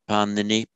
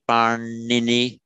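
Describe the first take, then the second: First: The middle n is made with the tongue forward. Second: The middle n is made with the tongue curled back. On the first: The speaker calls it wrong. "not parnini" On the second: The speaker calls it right. "Say parnini"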